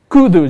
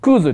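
First: The word ends with a 'du' sound. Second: The word ends with a 'zu' sound. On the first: The speaker calls it wrong. "クードゥじゃないですよ" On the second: The speaker calls it right. "クーズでいこうと思います"

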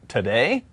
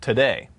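First: The word sounds hesitant and unsure. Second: The word sounds firm and certain. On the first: The speaker is unsure if the other person is free. "as if, like, I'm uncertain if you're available today" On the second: The answer is definite. "Which would be, like, a definitive answer"

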